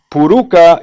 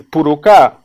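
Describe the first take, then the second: First: "puruca" stressed on the middle syllable, pu-RU-ca; stress on second syllable. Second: "purucá" stressed on the final syllable, pu-ru-CA; stress on last syllable. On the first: Lecturer contrasting two accepted stresses, "puruca" stressed on RU. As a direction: say "puruca" with the accent on RU. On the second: Lecturer contrasting two accepted stresses, "purucá" stressed on final CA. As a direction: land the accent on the last CA of "purucá". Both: Shown as a demonstration. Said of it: "pueden tener el acento en cualquiera de las dos".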